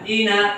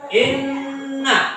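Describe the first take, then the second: First: The n sound is short and single. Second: The n sound is held long and doubled. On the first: "Kalau tidak ada tanda sabdu dibaca ina" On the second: "karena ada tanda sabdu, maka dibaca sabdu didobelkan"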